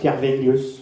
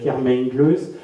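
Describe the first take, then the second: First: The middle consonant is pronounced as V. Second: The middle consonant is pronounced as M. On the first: This is how the name is really said in Breton. The speaker calls it right. "en réalité en breton on le prononce ... avec un V et non pas un M" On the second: This is how the name is written. The speaker calls it wrong. "un toponyme qui est noté"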